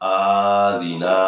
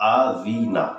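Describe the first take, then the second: First: The vowels are stretched out long. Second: The word is said calmly and clearly. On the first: The speaker calls it wrong. "আযিনা টান দিই তাহলে কিন্তু হবে না" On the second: The speaker calls it right. "আযিনা রিল্যাক্সে বলবেন স্পষ্ট হতে হবে"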